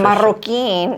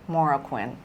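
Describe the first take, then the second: First: The surname is said with Spanish sounds. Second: The surname is said with English sounds.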